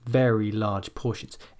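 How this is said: One unit, starting high and falling. The speaker calls it right. "it almost becomes like one unit, and you start at a high point and you come down"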